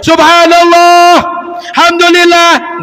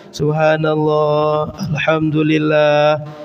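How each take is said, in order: First: It is shouted very loudly. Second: It is said at a moderate volume.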